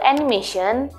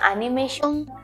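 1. Kata ini diucapkan dengan cara Inggris. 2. Kata ini diucapkan dengan cara Jepang. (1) "kata serapan dari bahasa Inggris yaitu animation" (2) "di Jepang itu dibacanya animation"

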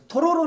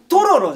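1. 最初の音節の後で上がる。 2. 最初の音節が高い。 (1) "トロロなんだよお前" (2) "お前のトロロのイントネーションが気になって"

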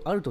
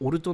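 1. 単語は 'a' の母音で始まる。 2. 単語は 'o' の母音で始まる。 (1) "日本語だとアルト" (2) "英語だと発音的にはオルトの方が正しいですよね"

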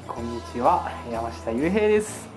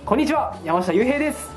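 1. 落ち着いていて、間延びしています。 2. 元気で明るく聞こえます。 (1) "絶対落ち着いてみようと思って" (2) "ちょっと元気に"

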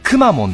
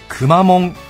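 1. 最初の拍は高いです。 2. 最初に高くならず、ずっと平らです。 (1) "頭高アクセント…クを一番強くして" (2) "平板化って、真っ平らな、平べったい、クマモンが正しい"

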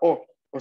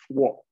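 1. Es una vocal simple, sin sonido w. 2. Empieza con un sonido w antes de la vocal. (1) "recuerden que se pronuncia o" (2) "no se va a pronunciar wo"

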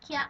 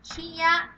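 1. สองเสียงนี้รวมกันเป็นพยางค์เดียวอย่างรวดเร็ว 2. พูดเป็นสองพยางค์แยกกัน ออกเสียงต่อกันไป (1) "ให้เราพูดเร็วๆ" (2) "ตัวนี้ตัวเดียวอ่านว่าคิแยกไป"

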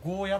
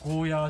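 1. 最後の母音は短いです。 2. 最後の母音は長いです。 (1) "スーパーにもゴーヤって打ってある。" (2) "ゴーヤーじゃなく"

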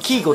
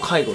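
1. 最初の音節は'key'に聞こえます。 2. 最初の音節は'kai'に聞こえます。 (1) "アメリカだと、キーゴっていう読み方してる" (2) "ヨーロッパ圏だと、介護っていう風に読んでますね"

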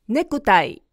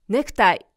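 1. kの後の母音は強く、唇を丸めます。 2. kの後の母音は弱く、ほとんど声がありません。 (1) "くと口を丸めて母音を強めに発音する" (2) "関東の人はネクタイ、草のように発音することが多い"

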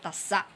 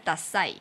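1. 这个词省掉尾元音，突然停住。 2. 这个词以完整的尾元音结束。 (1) "那如果你要把它变得很像是口语的说法的话，你可以说dasa、嗯、那个e 可以不要" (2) "第四个是dasai"

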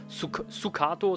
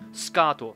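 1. Das u nach dem s wird deutlich ausgesprochen. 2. Das u nach dem s ist fast nicht zu hören. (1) "deswegen ist es nicht Sukato" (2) "Das S und das K werden sehr nah aneinander gesprochen und das U wird dabei fast verschluckt"

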